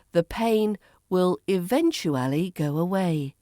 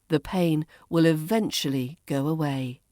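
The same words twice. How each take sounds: First: "eventually" as ih-VEN-choo-AL-ee; full form. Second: "eventually" as ih-VENCH-uh-lee; reduced form. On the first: Teacher models the long form for learners, "eventually" fully sounded. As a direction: pronounce "eventually" syllable by syllable. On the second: Teacher models the shortened form for learners, "eventually" as ih-VENCH-uh-lee. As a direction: leave the "oo" out of "eventually". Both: Shown as a demonstration. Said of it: "Eventually becomes".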